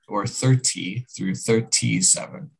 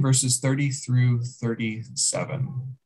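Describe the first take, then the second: First: The t sounds are crisp, fully released t's. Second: The t sounds are flapped, like soft d's.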